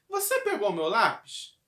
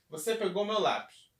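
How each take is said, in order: First: It is said with a question intonation. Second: It is said flat, like a statement.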